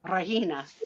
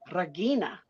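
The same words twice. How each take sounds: First: The G is left silent. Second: The G is pronounced as a hard sound. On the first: "I knew that the G was silent" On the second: "is it a hard G like Regina?"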